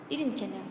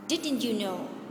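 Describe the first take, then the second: First: The words run together in a reduced form. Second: Each word is said separately and in full.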